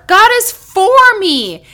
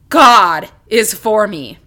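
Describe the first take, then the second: First: The stress is on for. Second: The stress is on God.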